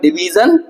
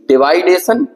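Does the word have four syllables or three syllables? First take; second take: three syllables; four syllables. First: The word is said with three syllables, di-vi-jan. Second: The word is said with four syllables, di-vai-de-shan. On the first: The speaker calls it right. "इसका सही उच्चारण होगा डिवीजन।" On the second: The speaker calls it wrong. "ये सही नहीं है।"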